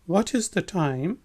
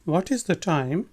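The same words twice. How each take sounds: The two takes are said the same way.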